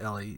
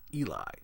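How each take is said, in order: First: The first vowel sounds like in 'bed'. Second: The first vowel sounds like in 'see'. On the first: The speaker calls it wrong. "I wrongfully said this was Ellie. It's not Ellie" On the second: The speaker calls it right. "It's Eli"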